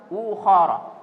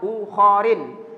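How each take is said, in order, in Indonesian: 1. Kata ini berakhir dengan vokal a tanpa tambahan. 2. Kata ini berakhir dengan i diikuti n. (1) "Jadi harus ukhara" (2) "apalagi dibaca ukharin"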